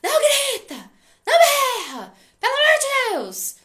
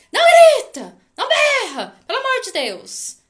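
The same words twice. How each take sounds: First: Shouted high and very loud, laughing through it; a parent yelling at the kid, hammed up with a laugh; mock parent yelling. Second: Put-on a shrill, very loud high shout, the kid copying the parent; hammed-up yell, the child parroting the scold; mock child yelling back. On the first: Parent yelling at a noisy child, mock shout with laughter. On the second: Nervous child echoing the parent's scolding, mock shout.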